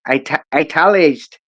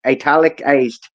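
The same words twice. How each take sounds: First: Italicized tripped over, "ita-" broken off and then clipped to italeized; a tongue-twisted italicized; stumbled italicized. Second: Italicized said carefully in full, i-TAL-i-cized, every syllable there; a corrected, careful Italicized. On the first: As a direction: trip on the word italicized, swallowing a syllable. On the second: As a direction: get italicized right this time, syllable by syllable. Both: Real, not acted. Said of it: "Tongue twister".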